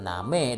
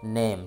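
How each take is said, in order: First: It is read as spelled, like Indonesian 'na-me'. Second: It is said with an English 'ay' vowel. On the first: The speaker calls it wrong. "bukan name dalam bahasa Inggris" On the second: The speaker calls it right. "tetapi name, sesuai yang dicontohkan"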